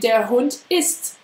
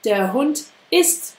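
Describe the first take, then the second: Both takes have the same delivery.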